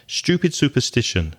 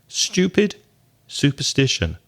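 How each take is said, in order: First: It is said quickly, repeated several times. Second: It is said once at a normal pace. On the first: "Now say it six times fast" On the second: "Doesn't seem too difficult"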